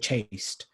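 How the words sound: The vowel sounds like the one in 'case'. "In British English, we say chaste, so it doesn't really rhyme"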